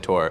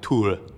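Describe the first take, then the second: First: The name is said with an English pronunciation. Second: The name is said with a Swedish pronunciation. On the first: "Brits and Americans all say Tor" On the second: "Swedes say something along the lines of like Tor"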